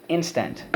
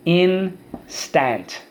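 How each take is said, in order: First: Said in the usual way. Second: "Instant" split slowly in two, full "stant", high pitch; syllable by syllable. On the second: Shown as a demonstration. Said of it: "First syllable".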